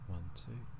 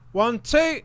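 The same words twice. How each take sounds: First: It is said quietly. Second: It is said loudly and excitedly.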